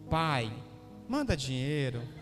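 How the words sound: It is said sweetly and lovingly.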